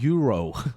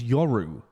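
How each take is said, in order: First: The first vowel sounds like 'you'. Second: The first vowel sounds like 'yo'. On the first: The speaker calls it wrong. "People always pronounce it Euro" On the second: The speaker calls it right. "I think it's Yoru, right?"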